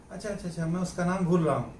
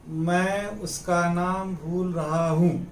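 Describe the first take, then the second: First: Quick, offhand chat delivery; casual conversational aside. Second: Slow, evenly spaced dictation; slow example sentence. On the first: Acted. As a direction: run it together as in everyday conversation. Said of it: "बातचीत हो रही है, उसमें आदमी कहता है कि". (आम बातचीत जैसा, जल्दी-जल्दी) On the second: Shown as a demonstration. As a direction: say it slowly for learners, word by word. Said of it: "बातों बातों में आदमी कहता है ना". (धीरे-धीरे, साफ़ बोलकर)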